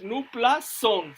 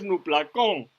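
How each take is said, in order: First: NUPLA SON with an s sound before "on"; slow, pronounce SON with a hissed s; soft c sound. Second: NUPLA CON with a k sound before "on"; hard c, wrong form. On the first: Teacher giving the correct form, soft c. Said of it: "se diría, no es nupla con". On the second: Teacher showing what not to say, hard c. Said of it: "no es nupla con". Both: Shown as a demonstration.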